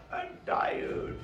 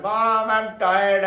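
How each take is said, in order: First: Soft, breath-only groan of tiredness; mock weariness. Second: Slow, louder, drawn-out mock whine; whining child. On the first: Teacher imitating us with all our atoms, weary. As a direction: let it sag out in a tired, voiceless sigh. Acts out how people feel. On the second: Children to Mom about reading, whining. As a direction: drag it out like a complaining child.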